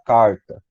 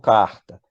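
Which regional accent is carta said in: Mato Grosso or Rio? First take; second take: Mato Grosso; Rio. First: It is said with an inland Mato Grosso accent. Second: It is said with a Rio de Janeiro accent. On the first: "Quem é do interior do Mato Grosso, por exemplo, vai falar carta" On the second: "eu falo carta"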